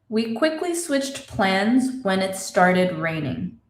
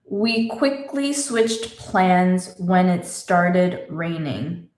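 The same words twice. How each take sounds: First: It is said fast. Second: It is said slowly.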